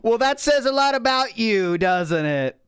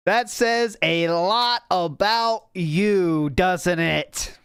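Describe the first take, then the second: First: Said in the usual way. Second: Drawn-out, deliberate delivery; slow, knowing dig at someone; slow, pointed repeat. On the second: Real, not acted. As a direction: stretch each word to rub it in. Repeats the line slowly for effect.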